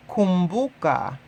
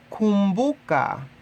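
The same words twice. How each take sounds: The two takes are said the same way.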